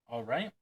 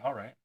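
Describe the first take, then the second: First: The voice rises at the end, like a question. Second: The voice falls at the end, like an answer.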